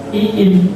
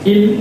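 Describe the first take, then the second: First: The vowel is drawn out long. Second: The vowel is kept short. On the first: The speaker calls it wrong. "Awas jangan dibaca in" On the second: The speaker calls it right. "Jadi in dibaca pendek"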